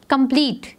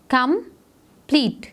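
First: Said in the usual way. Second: Slow "कंप्लीट" as com, pause, plete; split into syllables. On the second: Shown as a demonstration. Teacher counting two syllables for pupils, syllable by syllable. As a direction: break "कंप्लीट" into two drawn-out beats. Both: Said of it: "so we have two syllables".

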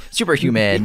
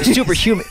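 First: Said in the usual way. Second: Stiff robotic voice. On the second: Pretend. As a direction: say it like a machine. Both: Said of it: "I sound like a robot now".

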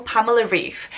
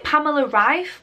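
First: "Reif" with an ee vowel, like reef; surname said as Reef. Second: "Rife" with a long i, rhyming with life; surname said as Rife. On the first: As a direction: say "Reif" to rhyme with beef. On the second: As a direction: say "Rife" with an eye vowel. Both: Shown as a demonstration. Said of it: "how to correctly pronounce your".

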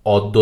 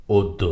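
First: অদ্য said "awddo", with open aw first; mistaken open vowel. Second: অদ্য said "oddo", opening on o; correct o-like vowel. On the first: Teacher showing the error to avoid, "awddo". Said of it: "অদ্য না". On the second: Teacher correcting the error for learners, "oddo". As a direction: begin অদ্য with a rounded o. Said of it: "ওকারান্ত হবে আদ্যটি". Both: Shown as a demonstration.

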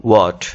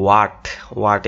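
First: "what" with a rounded o, wot; correct pronunciation. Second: "what" with an open ah, waat; wrong pronunciation. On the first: Teacher offering the right option, correct pronunciation. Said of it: "সঠিক উচ্চারণটা হচ্ছে". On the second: Teacher offering the common option, local pronunciation. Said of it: "এভাবে উচ্চারণ করব". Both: Shown as a demonstration.

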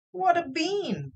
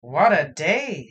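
First: Put-on high, slow, amazed boy; boyish wonder. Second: Put-on slow, loud old wizard sigh. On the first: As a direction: marvel at it like a wide-eyed kid. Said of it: "said Jack". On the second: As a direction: drag it out like a weary old wizard. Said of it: "said the old wizard guy".

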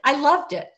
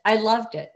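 First: Enthusiastic. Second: Said in the usual way. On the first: Real, not acted. Enthusiastic answer.

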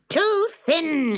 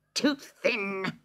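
First: Much higher and louder, "too thin" snapped hard; witch snapping. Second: Higher, sour witch complaint; snappish witch. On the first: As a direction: snap "too thin" at the boy in disgust. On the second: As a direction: grumble "Too thin" with the first word stretched. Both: Acted. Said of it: "she snapped".

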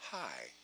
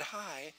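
First: Low, hushed hello; match it lower and softer; mirrored soft greeting. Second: Hushed little hello; soft greeting. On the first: Shown as a demonstration. Recruiter mirroring Renee's greeting, low and soft. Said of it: "It's called mirroring". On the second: Acted. Trainer plays Renee greeting the caller, soft. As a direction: say it very softly. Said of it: "Renee said".

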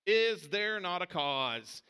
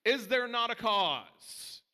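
First: "Is" leading, slow and settled; "Is there not a cause?" again, brought back down; lower repeat. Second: "there" lifted high, very slow; "Is there not a cause?" slowed right down, "there" peaking; emphatic rhetorical question. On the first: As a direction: echo it, calmer. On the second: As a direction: preach it, climbing on "there". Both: Shown as a demonstration. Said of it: "the phrase that a million sermons".

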